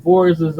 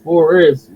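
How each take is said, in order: First: "forces" ending in an extra -es syllable; accented "forces", two syllables closing on s; accented pronunciation. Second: "forest" with a single s sound; "forest" as two syllables, FOR-est; standard pronunciation. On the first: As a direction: say "forces" with a plural-sounding -ces ending. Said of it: "'cause of my accent". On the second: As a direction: say "forest" carefully, without the -ces ending. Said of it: "it's pronounced forest with just one X". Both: Shown as a demonstration.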